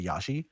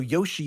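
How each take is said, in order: First: The first vowel is an 'ah' sound. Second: The first vowel is a long 'oh' sound. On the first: It is how the letters would be read with no context. "if we just looked at those letters, we would say Yashi" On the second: It copies the Japanese way of saying the name. "we pronounce a, ho- a, a long O"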